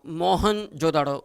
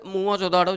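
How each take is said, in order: First: The name begins with the sound 'Mohan'. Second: The name begins with the sound 'Mua'. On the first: The speaker calls it wrong. "गलत उच्चारण इसका wrong pronunciation" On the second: The speaker calls it right. "Sindhi भाषा में सही शब्द है"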